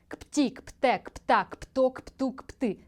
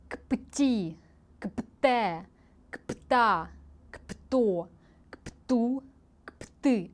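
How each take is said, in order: First: The syllables are said at a fast pace. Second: The syllables are said at a slow pace.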